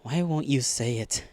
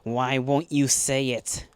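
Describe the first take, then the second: First: The line is spoken very softly. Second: The line is spoken more loudly. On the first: "The words are so soft, I don't even hear them at first"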